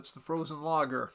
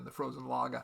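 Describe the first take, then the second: First: It is said in a standard accent. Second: It is said in a Boston accent.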